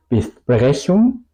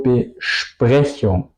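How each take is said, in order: First: "Besprechung" with a plain S, bes-prechung, rising; wrong pronunciation. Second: "Besprechung" slowly, as be-shprechung, falling; correct pronunciation. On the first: Teacher showing what not to say, plain S in "Besprechung". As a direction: say "Besprechung" with S and P as in Spanish. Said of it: "no digo Besprechung". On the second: Teacher correcting the wrong take, sh in "Besprechung". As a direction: say "Besprechung" with sh before the P. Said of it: "digo Besprechung". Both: Shown as a demonstration.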